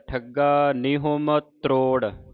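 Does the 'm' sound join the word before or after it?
before. The 'm' sound ends the preceding word. "ਇਸ ਤਰ੍ਹਾਂ ਉਚਾਰਨ ਕਰਵਾਇਆ ਜਾਂਦਾ ਹੈ"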